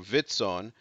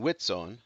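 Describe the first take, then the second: First: The word begins with a v sound. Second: The word begins with a w sound. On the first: "instead of ... vitzon" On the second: "it's ... witzon"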